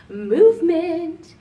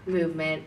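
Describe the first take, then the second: First: Announcer-style. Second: Said in the usual way. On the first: Shown as a demonstration. Announcing next topic.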